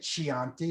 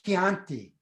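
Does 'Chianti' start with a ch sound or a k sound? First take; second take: ch sound; k sound. First: It begins with a soft ch sound. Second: It begins with a hard k sound. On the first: The speaker calls it wrong. "You can't say Chianti. It's, that's not the way to say it" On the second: The speaker calls it right. "I say Chianti"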